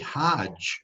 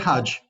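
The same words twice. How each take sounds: First: The vowel in the word is long. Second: The vowel in the word is short. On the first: It names someone who makes the pilgrimage. "with a long vowel sound" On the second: It names the required pilgrimage. "note the short vowel sound"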